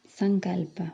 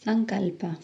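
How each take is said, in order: Both takes have the same delivery.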